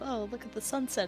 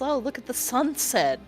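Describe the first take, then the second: First: It is said casually, like ordinary talk. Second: It is said knowingly, like a secret signal.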